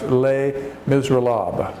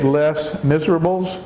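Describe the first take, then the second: First: The title is said with French sounds. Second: The title is said with English sounds. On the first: The speaker calls it right. "in French, it would be pronounced" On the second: The speaker calls it wrong. "if we used English pronunciation, we would say"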